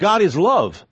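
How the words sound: It is said in a firm, forceful, assured way. Love is stated as a strong, certain truth. The speaker calls it right. "There's a forcefulness. There's an assurance in that"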